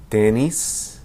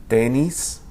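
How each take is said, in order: No difference in how they are said.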